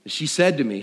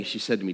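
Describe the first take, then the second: First: Said in the usual way. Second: A hushed second go; softer, lower restart. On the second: Shown as a demonstration. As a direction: drop the voice on the repeat.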